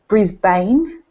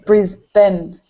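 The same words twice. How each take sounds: First: The ending is a full 'bane' sound. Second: The ending is a short reduced sound. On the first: The speaker calls it wrong. "Americans and Canadians tend to say" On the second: The speaker calls it right. "and it's"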